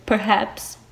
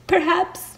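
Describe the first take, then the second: First: Said in the usual way. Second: "Perhaps" said much higher, lilting; high, arch "Perhaps"; higher sly repeat. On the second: Shown as a demonstration.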